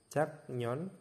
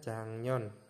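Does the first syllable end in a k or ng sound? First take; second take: k; ng. First: The first syllable ends in a k sound. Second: The first syllable ends in an ng sound. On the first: "Di sini ada jaknyon" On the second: "dibacanya jangnyon"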